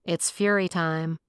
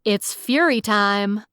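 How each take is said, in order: First: Slow, flat, reluctant delivery; a weary slow mumble of a catchphrase. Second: Slow, louder heroic proclamation; slow, louder heroic catchphrase; superhero voice. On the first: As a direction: drag it out, tired of the whole idea. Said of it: "I heaved a weary sigh". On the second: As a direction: boom it out like a caped hero making an entrance. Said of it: "mustered my best superhero voice". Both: Acted.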